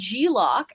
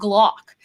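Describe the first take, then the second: First: The G is said as its own letter name. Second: The G blends into a single syllable. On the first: "Which would be G-lock if it was G dash lock" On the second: "It's a fucking Glock"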